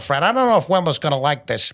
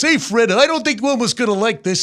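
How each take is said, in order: First: Barney's voice is not placed in the nose. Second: Barney's voice is placed up behind the nose.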